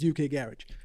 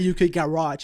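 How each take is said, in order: First: Garage is said with a British accent. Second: Garage is said with an American accent. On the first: The speaker calls it right. "because of the way that they say it in the U K, it's always like it's U K garage" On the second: The speaker calls it wrong. "I'm never gonna say U K garage. Like it sounds weird to me"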